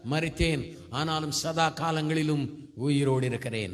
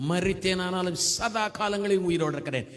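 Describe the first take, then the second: First: Slow, solemn verse reading; measured scripture quote. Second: Verse repeated with a lifted, firm voice; fervent scripture proclamation. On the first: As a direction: recite the verse deliberately. (நிதானமா வசனம் சொல்லுதல்) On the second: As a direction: declare the verse triumphantly. Verse repeated with more force. (உற்சாகமா வசனத்தை முழங்குதல்) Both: Real, not acted.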